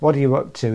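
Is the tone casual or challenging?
casual. It sounds light and casual, like a friendly greeting. It is a general greeting to start a conversation. "said that way, ... a sort of a general conversation starter"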